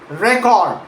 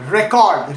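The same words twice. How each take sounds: First: The stress is on the first syllable. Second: The stress is on the second syllable.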